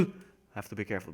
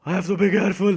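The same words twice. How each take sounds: First: Said in the usual way. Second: Loud, higher, hammed-up wail; exaggerated fretful voice; mock panic. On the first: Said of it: "But seriously". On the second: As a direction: cry it out in put-on alarm. Hammed-up panic before serious restatement.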